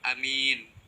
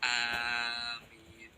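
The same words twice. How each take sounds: First: The first vowel is kept short. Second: The first vowel is drawn out long. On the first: "membaca pendek alifnya" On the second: "memanjangkan alifnya dan tidak mentasydid mim"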